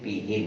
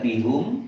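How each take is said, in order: First: The last syllable has an 'i' vowel. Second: The last syllable has a 'u' vowel. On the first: The speaker calls it right. "tapi bihim" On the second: The speaker calls it wrong. "bukan bihum"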